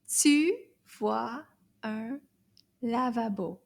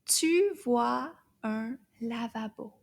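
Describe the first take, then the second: First: Tu vois un lavabo spaced word by word. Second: Tu vois un lavabo slow and linked; slow and smooth. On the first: Teacher's repeat, word by word. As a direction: read tu vois un lavabo one word at a time. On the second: Teacher reading the whole sentence slowly. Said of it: "Toute la phrase". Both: Shown as a demonstration.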